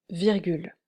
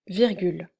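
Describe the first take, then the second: Both takes have the same delivery.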